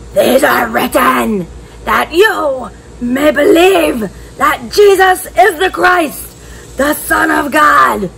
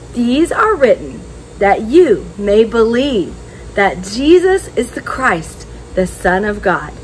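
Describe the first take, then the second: First: It is said in a growly lion voice. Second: It is said in a normal voice.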